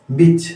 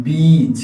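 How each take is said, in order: First: बिच said with a short, quick i; short i sound. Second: बीच with the ee held long and slow; long ee sound. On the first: Teacher showing students the short vowel, said quickly. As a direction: clip the i in बिच short and fast. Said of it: "short sound में कैसे बोलते हैं". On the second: Teacher showing students the long vowel, drawn out. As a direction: stretch out the ee in बीच. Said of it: "वो long sound में count होता है". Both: Shown as a demonstration.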